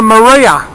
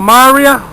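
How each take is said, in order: First: Maria with a light, reduced first syllable; pronunciation variant. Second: Maria with a full, open MAH at the start; alternative pronunciation. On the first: Angler naming his lure for viewers, pronunciation variant. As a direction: say Maria as muh-REE-a, weight after the first syllable. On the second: Angler offering another name for the lure, alternative pronunciation. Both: Shown as a demonstration. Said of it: "whichever way you pronounce it".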